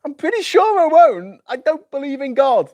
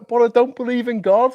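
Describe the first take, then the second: First: Much higher and louder, falling firmly on God; insistent high protest. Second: Much higher, rising in disbelief; high incredulous protest. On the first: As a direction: insist flatly, ending down. Mock dialogue, insisting. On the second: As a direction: protest it like a question. Mock dialogue, himself as Archbishop. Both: Pretend.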